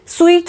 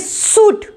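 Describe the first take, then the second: First: The word has a w sound and long ee. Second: The word has no w sound and an oo. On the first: The speaker calls it wrong. "स्वीट थोड़ी ना बोलेंगे" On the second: The speaker calls it right.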